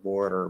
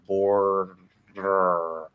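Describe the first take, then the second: First: The word is said quickly with a fast tap. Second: The word is said slowly and drawn out. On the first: The speaker calls it right. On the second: The speaker calls it wrong.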